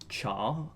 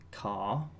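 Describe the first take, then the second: First: The word begins with a ch sound. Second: The word begins with a k sound.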